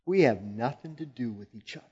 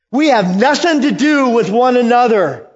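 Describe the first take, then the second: First: Said in the usual way. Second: High, loud repeat of the line; loud demon cry. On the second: Acted. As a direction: throw the line out in alarm. Louder second take of the quote.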